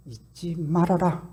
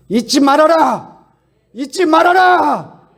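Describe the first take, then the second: First: Said in the usual way. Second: Slow and higher with each repetition, building to a shout; rising cry. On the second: Shown as a demonstration. Preacher repeating do not forget, building to a loud cry. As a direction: drive the command home louder each time. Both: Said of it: "repeated with building force".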